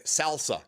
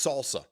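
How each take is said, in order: First: Salsa with a short a as in "pal"; mispronounced word. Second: Salsa with a broad ah; corrected pronunciation. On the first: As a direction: say Salsa as "SAL-suh". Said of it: "they tried to tell him". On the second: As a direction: correct salsa to "SAHL-suh". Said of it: "No, it's salsa". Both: Retold or imitated.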